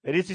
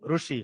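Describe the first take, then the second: First: It uses the pronunciation of Hindi-speaking regions. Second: It uses the pronunciation of non-Hindi-speaking regions. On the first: "Hindi में क्या करते हैं हम? ऋषि शब्द ये प्रयोग करते हैं, ऐसे बोलते हैं" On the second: "अहिंदी भाषी लोग क्या बोलेंगे इसको? इसको बोलेंगे ऋषि"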